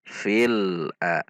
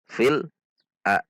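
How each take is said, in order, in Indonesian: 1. Suku katanya disambung dengan mulus. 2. Suku katanya dipisah dengan jeda. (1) "disambung dengan sifat bainiyah lam"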